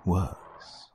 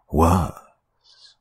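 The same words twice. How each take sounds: First: Softer menacing warning; quiet warning. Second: Louder menacing warning. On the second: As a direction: push the repeat harder. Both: Acted. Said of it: "the voice warned".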